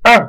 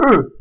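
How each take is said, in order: First: "E" as open French eu, as in "peur". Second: "E" as closed French eu, lips rounded. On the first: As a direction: say "E" rounded but open, higher. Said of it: "E ouvert, fermeture légère". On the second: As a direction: say "E" as the tight vowel of "peu". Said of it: "C'est pas le E". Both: Shown as a demonstration.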